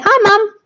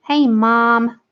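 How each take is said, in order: First: High, loud British call to mum; British accent. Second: Amateur American greeting; attempted American accent. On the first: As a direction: call out brightly in a London accent. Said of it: "I say". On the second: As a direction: put on a rough American accent. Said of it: "but you say mom". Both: Shown as a demonstration.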